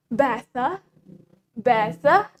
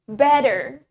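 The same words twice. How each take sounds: First: Better with a crisp T and no R; British T in better; British pronunciation. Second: Better with a D sound and firm R; American D for the T in better; American pronunciation. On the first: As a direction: say "better" as "bet-tah". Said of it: "in British". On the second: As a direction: say "better" as "bedder". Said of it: "in American, we say it". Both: Shown as a demonstration.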